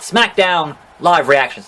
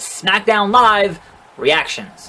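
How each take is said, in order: First: Live is grouped with Reactions, after a break. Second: Live is grouped with SmackDown, before a break. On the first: The reactions themselves are happening live. The speaker calls it wrong. "Obviously, this video is not live" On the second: Live is part of the show's name. The speaker calls it right. "that's very important how you emphasize that video title"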